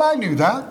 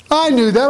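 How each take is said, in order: First: Said in the usual way. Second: I knew that, with "I" raised and louder; stress on I. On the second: Shown as a demonstration. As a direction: hit "I" hard in I knew that.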